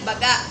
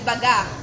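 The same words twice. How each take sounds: First: Said quickly, the final vowel cut off in the throat. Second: Said quickly, the final vowel left open and flowing. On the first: "mabilis ang pagbigkas sa maragsa" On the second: "mabilis at bukas ang huling patinig"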